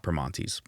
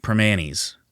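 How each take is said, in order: First: Primanti's with a clear T, "pruh-MAHN-teez"; Primanti's said as written, T sounded; spelled-out pronunciation. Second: Primanti's said "pruh-MAN-eez", no T; Primanti's said the Pittsburgh way, dropping the t; local pronunciation. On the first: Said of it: "It's not Primanti's". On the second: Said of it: "that's how you say it here". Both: Shown as a demonstration.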